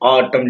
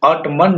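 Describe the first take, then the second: First: The final n is silent. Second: The final n sound is pronounced. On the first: The speaker calls it right. "क्या बोलेंगे? ऑटम" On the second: The speaker calls it wrong. "ऑटमन नहीं बोलेंगे"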